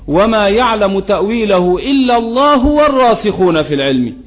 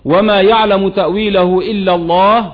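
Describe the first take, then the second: First: The phrase runs on without stopping after Allah. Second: There is a full stop after the word Allah. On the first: God and those firm in knowledge know its interpretation. "أما قراءة الوصل" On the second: Only God knows its interpretation. "قراءة الوقف"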